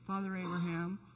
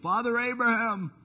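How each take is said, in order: First: It is said in a calm, casual voice. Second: It is said in an anxious, anguished voice. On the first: The speaker is only mildly uncomfortable. The speaker calls it wrong. "Do you think he just said" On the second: The speaker is crying out in agony. The speaker calls it right. "Why did I read that with a voice of anxiety?"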